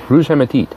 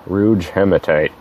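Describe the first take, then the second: First: The name is said with a French-style pronunciation. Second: The name is said with an English-style pronunciation. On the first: It sounds fancy and pretentious. "I probably butchered that pronunciation" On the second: It sounds plain and unpretentious. "Let's do it that way so I don't look quite as pretentious"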